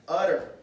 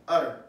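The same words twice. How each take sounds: First: Utter said out loud and full; clear utterance. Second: Utter said out loud again, full; clear utterance. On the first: Preacher showing the word utter, said out loud. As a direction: speak it out, don't mutter. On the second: Preacher repeating utter against muttering, out loud. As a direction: speak it out plainly. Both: Shown as a demonstration. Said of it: "as opposed to muttering".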